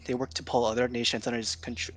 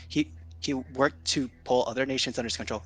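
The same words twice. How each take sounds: First: Stumbling over the words; stuttering. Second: Restarting with a stammer; stammer, then push through; stuttering restart. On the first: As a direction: trip over the line nervously. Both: Real, not acted. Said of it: "This is me, like, stuttering".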